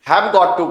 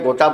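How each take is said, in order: First: All three words are said separately and fully. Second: The words are squeezed together into two syllables. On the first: The speaker calls it right. "हैव गॉट टू को" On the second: The speaker calls it wrong. "Short में गोटा बोलने की कोशिश की जाती है"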